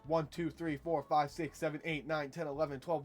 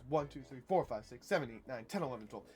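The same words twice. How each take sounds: First: All counts are said with even weight. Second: Some counts are said with extra emphasis. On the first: The speaker calls it wrong. "why twelve eight isn't just" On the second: The speaker calls it right. "because of this funky little thing called an agogic accent"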